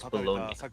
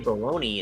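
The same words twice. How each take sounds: First: The word ends with a 'nya' sound. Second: The word ends with an 'ee' sound. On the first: "its actual pronunciation is Bologna... B O L O N Y A" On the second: "common to say Bologna instead... the Y makes the E sound"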